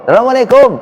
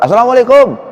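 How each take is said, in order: The two takes are said the same way.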